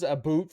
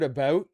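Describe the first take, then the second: First: "a boot" for "about", rhyming with "suit"; mock Canadian "about". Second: Said in the usual way. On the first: Shown as a demonstration. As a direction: say "a boot" with an oo vowel, like "boot". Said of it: "says a boot for the word about". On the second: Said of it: "for the word about".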